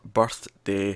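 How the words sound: There is a pause between birth and day. "putting in the pause"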